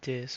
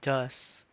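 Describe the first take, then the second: First: The vowel sounds like the 'i' in 'this'. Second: The vowel sounds like the 'u' in 'bus'. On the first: "not dis?" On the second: "Why is it dus"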